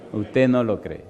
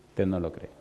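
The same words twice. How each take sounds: First: Said in the usual way. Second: "Usted no lo cree" dicho más bajo y suave; déjalo caer en voz baja; reproche suave. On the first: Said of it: "repite a la congregación". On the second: Real, not acted. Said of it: "repite más bajo". (repite a la iglesia, bajando la voz)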